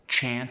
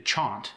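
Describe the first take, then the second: First: The vowel is a flat American a. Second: The vowel is a broad British ah.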